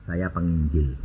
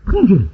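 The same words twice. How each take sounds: First: Low, soft, matter-of-fact reply; understated answer. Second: Louder, higher echo of the answer; surprised echo. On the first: Preacher telling a car seller his job, understated. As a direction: say it low and quietly. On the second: Car seller echoing the preacher's job, surprised. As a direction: repeat it back, taken by surprise. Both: Retold or imitated.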